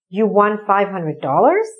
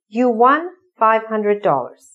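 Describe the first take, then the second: First: It is said with questioning intonation. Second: It is said with plain statement intonation.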